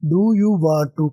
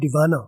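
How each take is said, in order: First: Each word is said fully and separately. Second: The words blend together into one reduced word.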